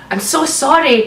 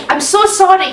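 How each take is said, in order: First: Said in the usual way. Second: Shy voice. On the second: A narrator's reading. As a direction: play the shy boy, lightly. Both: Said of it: "he said in a shy voice".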